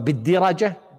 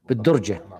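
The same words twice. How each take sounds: First: The first vowel is i, with a after r. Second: The first vowel is u, with no a after r. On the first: It is a plural form. The speaker calls it wrong. "بكسر الدال وفتح الراء جمع درج" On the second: It is a single item, one piece of cotton. The speaker calls it right. "بالضم"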